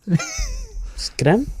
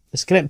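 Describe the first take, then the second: First: "It's grim" squeaked much higher; mock grim. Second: Said in the usual way. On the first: Real, not acted. Repeated, first take marked.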